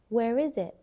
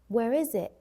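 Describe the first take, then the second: First: The final T in 'it' is dropped. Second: The same.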